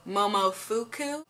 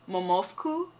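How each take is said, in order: First: Every vowel is fully pronounced, including after 'f'. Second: The vowel after 'f' is dropped or nearly silent. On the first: "I'm sure how most Americans pronounce it" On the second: "It's actually pronounced Momofku in Japanese"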